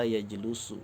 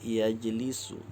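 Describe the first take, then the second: First: The vowel after the L is a 'u' sound. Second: The vowel after the L is an 'i' sound. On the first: The speaker calls it wrong. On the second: The speaker calls it right. "berbaris di bawah"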